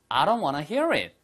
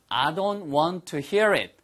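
First: It is said fast. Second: It is said slowly.

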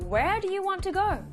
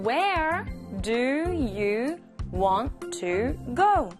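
First: It is said at normal speed. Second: It is said slowly.

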